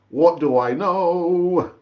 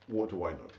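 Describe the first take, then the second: First: Slow, louder, each word weighed; "What do I know?" drawn out slowly and louder; mock-humble and emphatic. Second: Low, much softer muttered aside; a resigned aside, said low and soft; muttered to self. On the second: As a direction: mutter it under your breath. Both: Real, not acted. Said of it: "repeated rhetorical phrase".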